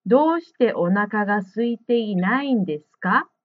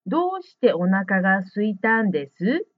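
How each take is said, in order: First: Rising question tune on どうして; どうして stressed and the end rising like a question; question intonation. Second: どうして stressed and ending on です without a question rise; statement intonation. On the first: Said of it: "イントネーションに気をつけないといけま". (「どうして」を強く、文末を上げる疑問のイントネーション) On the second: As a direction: read it as a statement, not as a question. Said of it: "というイントネーションになります". (「どうして」を強く、疑問でない平叙のイントネーション) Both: Shown as a demonstration.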